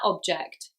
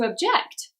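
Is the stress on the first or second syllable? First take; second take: first; second. First: The stress is on the first syllable. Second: The stress is on the second syllable. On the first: It is used as a noun. "What's that object?" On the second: It is used as a verb. "I'm going to object"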